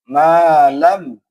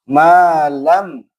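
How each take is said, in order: Both takes have the same delivery.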